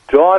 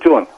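First: The vowel is a long 'a' sound. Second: The vowel is an 'u' sound. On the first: "جان میشه جون" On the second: "جان میشه جون"

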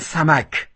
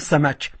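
First: It is said in standard Arabic pronunciation. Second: It is said in local dialect pronunciation. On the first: "در عربی فصیح به ماهی میگن سمک" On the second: "در عربی محلی ما بهش میگیم سمک"

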